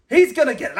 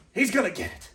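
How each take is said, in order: First: The same threat, louder and higher. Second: Muttered threat. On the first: Threatening Spanky to the camera, the threat raised louder. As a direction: push it up into a warning. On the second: Threatening Spanky to the camera, a softer muttered threat. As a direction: say it under his breath first. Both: Acted.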